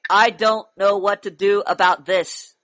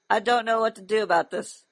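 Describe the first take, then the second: First: It is said forcefully and aggressively. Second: It is said quietly and weakly. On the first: The speaker calls it right. "That sounds a little more aggressive" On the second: The speaker calls it wrong. "Speak up. I can't hear you"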